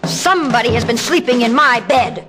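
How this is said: It is a deep, loud, growling voice.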